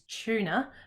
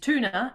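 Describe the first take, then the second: First: It begins with a blended ch-like sound. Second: It begins with a plain t sound. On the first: This is the speaker's own local way of saying it. "we would say is tuna because t-y kind of goes into a smush" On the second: This is the American way of saying it. "what the Americans would say is"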